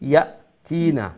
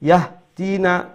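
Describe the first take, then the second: First: A glottal stop follows the first syllable. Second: An h sound follows the first syllable. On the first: The speaker calls it right. "ইয়া ইয়া ইয়া হামজা জবর ইয়া" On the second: The speaker calls it wrong. "ওইতো না"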